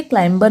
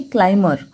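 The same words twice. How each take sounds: First: क्लाइंबर में b साफ़ बोला गया, क्लाइम-बर; गलत तरीका, b को ज़ोर से बोलना; wrong b pronounced. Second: क्लाइंबर बिना b, क्लाइ-मर; सही तरीका, b को चुप रखो; silent b correct. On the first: (गलत उच्चारण, बी के साथ) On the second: (सही उच्चारण, बी silent) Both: Shown as a demonstration. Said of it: "क्लाइंबर नहीं".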